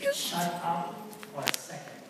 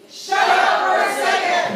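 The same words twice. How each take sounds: First: It is said quietly. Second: It is said loudly.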